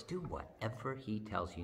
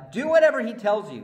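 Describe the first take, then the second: First: Soft repeat. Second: Loud command. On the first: Soft take after loud one. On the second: Loud take of Mary's line. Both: Acted.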